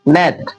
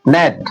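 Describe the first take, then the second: Both takes have the same delivery.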